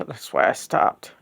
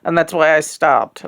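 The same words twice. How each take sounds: First: Soft unvoiced repeat to herself; whispered echo. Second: Said in the usual way. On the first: Real, not acted. Repeating her own words to herself in a whisper. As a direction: whisper it back to yourself. Echoed line, second take whispered.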